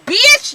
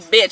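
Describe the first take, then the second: First: The word is drawn out with sassy attitude. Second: The word is said plainly, without attitude. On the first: The speaker calls it right. "You gotta say it with a bitch. It's bitch" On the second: The speaker calls it wrong. "it can't just be bitch"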